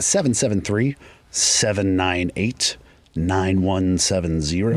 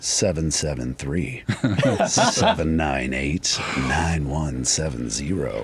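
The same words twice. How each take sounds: First: The number is said at normal speed. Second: The number is said more slowly.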